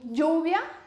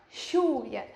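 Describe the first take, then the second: First: The word starts with a y sound. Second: The word starts with an sh sound. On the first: "A gente falaria" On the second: "eles falam mais chiado"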